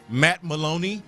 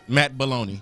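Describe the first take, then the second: First: The surname begins with an M sound. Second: The surname begins with a B sound. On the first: This is the name as it really is. The speaker calls it right. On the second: This is how a parent mispronounced the name. The speaker calls it wrong.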